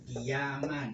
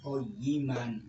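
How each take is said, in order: First: The vowel after the first consonant is i. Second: The vowel after the first consonant is a. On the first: This is the reading in the Indonesian mushaf. "ini harokatnya di mushaf Al-Quran Utsmani" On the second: This is the reading of other Quran reciters. "Tapi juga boleh dibaca koyiman"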